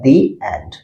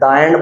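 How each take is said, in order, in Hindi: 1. 'The' को लंबे 'thee' स्वर के साथ बोला जाता है। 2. 'The' को छोटे 'thuh' स्वर के साथ बोला जाता है। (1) "दी एंड बोलना है" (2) "द एंड बोलेंगे गलत हो जाएंगे"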